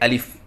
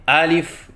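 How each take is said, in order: First: The first vowel is short. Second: The first vowel is drawn out long. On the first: The speaker calls it right. "सही अदायगी है अलिफ" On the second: The speaker calls it wrong. "ज़बर को कड़ी ज़बर से बदल कर पढ़ते हैं, ये गलत है"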